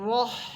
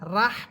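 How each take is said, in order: First: The r is heavy and full-mouthed. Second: The r is light and thin. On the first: The speaker calls it right. "র হরফ এখানে মোটা হবে" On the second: The speaker calls it wrong. "পড়া যাবে না"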